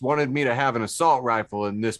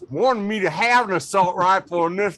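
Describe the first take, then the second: First: It is read in the speaker's normal voice. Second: It is read in a put-on redneck accent. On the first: The speaker calls it wrong. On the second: The speaker calls it right.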